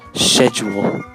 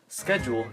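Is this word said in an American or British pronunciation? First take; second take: British; American. First: It is said with a British pronunciation. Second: It is said with an American pronunciation. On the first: "is pronounced schedule in the U K" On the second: "is pronounced schedule in America"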